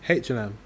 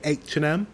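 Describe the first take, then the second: First: The letter H is said as 'haitch'. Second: The letter H is said as 'aitch'. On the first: This is how the speaker's own group says it. "H with a H" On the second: This is how Americans say it. "They say H with an A"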